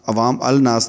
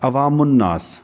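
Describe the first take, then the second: First: A separate 'al' with an 'l' is heard. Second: The 'l' merges into the 'n' sound. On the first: The speaker calls it wrong. "नहीं होगा" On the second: The speaker calls it right. "बल्कि ये होगा"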